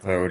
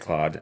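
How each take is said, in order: First: The name is said with a Canadian accent. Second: The name is said with an American accent. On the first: "[name] is Canadian, so she's going to say Claude" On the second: "I'm American... I'm going to say Claude"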